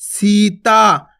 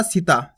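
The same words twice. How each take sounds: First: Sita with the vowels held long; drawn out. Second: Sita said short and quick; the wrong way: Sita clipped short; quick plain reading. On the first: Teacher drawing the word out for children. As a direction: stretch Sita very slowly. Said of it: "खींच के उच्चारण करना". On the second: Teacher showing the wrong quick reading. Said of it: "आपको सीता नहीं पढ़ना". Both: Shown as a demonstration.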